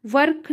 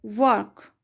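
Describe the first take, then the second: First: "वर्क" with a strong R; "वर्क" as vurrk, the mistake; wrong pronunciation. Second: "वर्क" with a very light R; "वर्क", R softened into the vowel; correct pronunciation. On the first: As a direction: sound the R hard in "वर्क". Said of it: "वर्क नहीं होगा". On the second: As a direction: say "वर्क" with the R barely touched, falling. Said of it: "आर का sound ये बहुत lightly है". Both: Shown as a demonstration.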